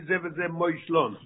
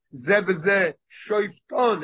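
First: Ze v'ze moishlon said slowly as the wording the text does not use; contrasting wrong wording. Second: Ze v'ze shoifton said slowly, each word weighed, stress on ze; stressing the exact wording. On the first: Teacher showing the wording the Gemara avoids, slow contrast. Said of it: "It doesn't say". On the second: Teacher stressing the Gemara's word shoifton to his class, slow and deliberate. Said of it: "is emphasizing on the word". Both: Shown as a demonstration.

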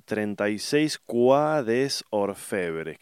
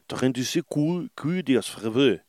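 First: Quai des Orfebres read as "kwa des or-FE-bres"; Spanish-style reading. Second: Higher, rough stab at a French accent; attempted French accent. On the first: Reading a film title, Quai des Orfebres in plain Spanish sounds. Reads French title as written. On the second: Retrying the film title, in an improvised French accent. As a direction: say the title in makeshift French, swallowing the endings. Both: Shown as a demonstration.

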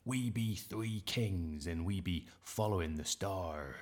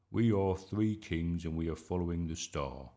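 First: Put-on slow, drawn-out pirate accent. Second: Said in the usual way. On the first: A narrator's reading. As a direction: declaim it like a play-acting pirate, slowly. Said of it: "in his best pirate accent". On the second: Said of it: "try it in your own voice".

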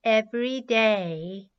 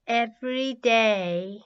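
The two takes are said the same way.

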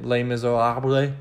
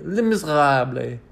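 First: Said in the usual way. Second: French-style Les Miserables with a throaty gargled R; Les Miserables, overdone guttural French; throaty French pronunciation. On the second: Shown as a demonstration. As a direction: say Les Miserables as if about to throw up on the R. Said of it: "sounds like you're about to throw up".

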